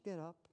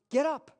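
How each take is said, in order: First: It is said in a tender, loving tone. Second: It is said in a harsh, commanding tone.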